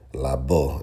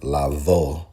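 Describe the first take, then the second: First: The middle consonant is a B sound. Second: The middle consonant is a V sound. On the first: "is what we teach with a B" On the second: "instead of"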